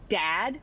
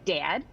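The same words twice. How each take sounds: First: The vowel is a plain standard short a. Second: The vowel is raised, sounding almost like 'dead'.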